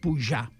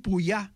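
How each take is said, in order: First: The middle consonant is a j-like hushing sound. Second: The middle consonant is a y-like glide. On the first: This is the general Catalan form. "en català general, fa txe" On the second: This is the Pallars and Ribagorça form. "el Pallars i la Ribagorça fa iot"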